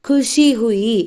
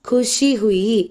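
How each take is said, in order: The two takes are said the same way.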